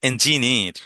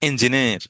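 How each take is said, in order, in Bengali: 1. এটি ব্রিটিশ উচ্চারণে বলা হয়েছে। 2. এটি ব্রিটিশ উচ্চারণে বলা হয়েছে।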